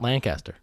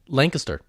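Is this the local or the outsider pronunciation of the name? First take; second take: outsider; local. First: It is said the way outsiders say it. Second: It is said the way locals say it. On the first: The speaker calls it wrong. "It's not Lancaster" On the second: The speaker calls it right. "just unique ways to say things. Like Lancaster"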